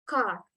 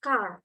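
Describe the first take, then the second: First: The final R is clearly pronounced. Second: The final R is clearly pronounced.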